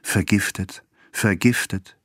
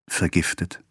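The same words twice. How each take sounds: First: Stunned word, haltingly repeated; shocked repetition. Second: Stunned. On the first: Husband can utter only one word, stunned. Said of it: "konnte immer nur das eine Wort herausbringen". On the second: Husband reads the wife's letter, stunned. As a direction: let the word barely come out, shocked. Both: A narrator's reading.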